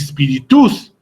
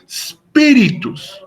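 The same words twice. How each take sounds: First: The stress falls on a later syllable. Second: The stress falls on the first syllable. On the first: The speaker calls it wrong. "ni spiritus" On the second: The speaker calls it right. "sino que se pronuncia como spiritus"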